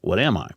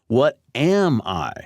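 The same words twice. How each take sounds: First: The voice stays on one flat, level pitch. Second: The voice varies its pitch with clear emphasis. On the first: The words are only visually styled, not emphasized. "read it in a flat monotone" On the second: The words are marked as emphasized. "change its vocal inflection because this tag is now emphasized"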